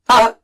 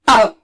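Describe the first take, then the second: First: The vowel is short with a sharp start. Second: The vowel is short with a sharp start.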